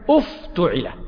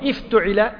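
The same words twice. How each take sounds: First: The word begins with a u vowel. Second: The word begins with an i vowel. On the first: The speaker calls it right. "همزة الوصل تتبع هذا المضموم في الضم" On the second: The speaker calls it wrong. "مو افتعل"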